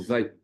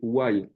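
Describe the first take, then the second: First: The word begins with a V sound. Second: The word begins with a W sound.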